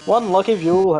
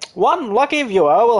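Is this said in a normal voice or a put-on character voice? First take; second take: normal; character voice. First: It is read in a plain, natural voice. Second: It is read in a put-on character voice. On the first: The speaker calls it wrong. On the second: The speaker calls it right.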